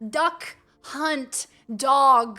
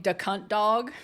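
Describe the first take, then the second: First: Each word is said clearly and distinctly. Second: It is slurred, imitating the game announcer.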